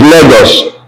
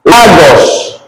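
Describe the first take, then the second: First: Lagos said "LAY-gos"; English A. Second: Lagos said "LAH-gos"; Spanish A. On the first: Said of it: "which is Lagos". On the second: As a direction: open Lagos with a clear "ah". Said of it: "A in Spanish is A". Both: Shown as a demonstration.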